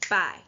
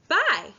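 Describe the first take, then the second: First: It is said in a plain, ordinary voice. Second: It is said in a cheerful, happy voice.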